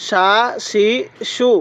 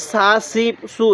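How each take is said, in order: First: সা, শি, সু with a full "sh": shaa, shee, shoo; thick sh. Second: সা, সি, সু with a thin hissed "s": saa, see, soo; thin s, wrongly. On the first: Teacher showing learners shin, সা, শি, সু with thick "sh". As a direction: give সা, শি, সু a thick "sh" each. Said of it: "এটা মোটা করে পড়ব". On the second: Teacher showing a common mistake, সা, সি, সু with thin "s". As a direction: say সা, সি, সু with s instead of sh. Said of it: "এরকমভাবে পড়ি না". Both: Shown as a demonstration.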